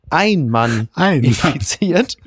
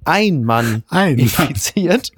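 First: The phrase is read with strong, marked emphasis. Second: The same.

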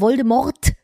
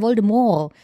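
First: The final T sound is pronounced. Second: The final T sound is silent. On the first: "Im Film wird er Voldemort gesprochen" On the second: "Das T am Ende ist stumm"

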